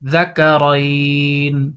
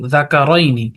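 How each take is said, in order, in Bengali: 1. শব্দটি শেষ ব্যঞ্জনে এসে থামে। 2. শব্দটি একটি ছোট স্বরধ্বনি দিয়ে শেষ হয়। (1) "নুনের উপরে সাকিন দিয়ে" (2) "যেটা আমরা বানান করেছি সেটাই বলেছি"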